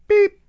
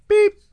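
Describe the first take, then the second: Both takes have the same delivery.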